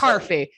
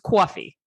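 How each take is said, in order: First: The first vowel is followed by an R sound. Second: The first vowel has a W-like glide. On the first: The speaker calls it wrong. "So it's not" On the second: The speaker calls it right. "There's a W in the in the New York pronunciation"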